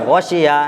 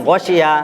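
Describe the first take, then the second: The two takes are said the same way.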